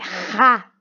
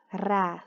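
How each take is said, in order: First: The r is a strong throaty sound. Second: The r is a light single tap. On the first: "um som forte de R" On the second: "som fraco"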